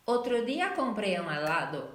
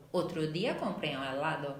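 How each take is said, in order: First: Spanish version. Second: Said in the usual way. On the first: Shown as a demonstration. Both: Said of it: "Por exemplo".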